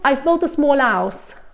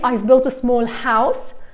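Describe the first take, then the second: First: The H at the start of house is dropped. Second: The H at the start of house is pronounced. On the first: "if I'm speaking really quickly, I could just skip the H sound" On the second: "instead of saying"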